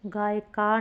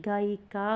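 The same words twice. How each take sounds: First: गायका as "gaay-kaa", no i; wrong vowel. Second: गायिका as "gaa-i-kaa"; corrected vowel. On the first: Teacher showing students the error, गायका without i. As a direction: drop the i sound in गायका. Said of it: "गायका नहीं". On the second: Teacher giving students the correction, गायिका with i. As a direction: sound a clear i in गायिका. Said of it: "गायिका होगा". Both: Shown as a demonstration.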